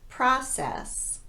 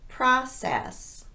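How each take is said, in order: No difference in how they are said.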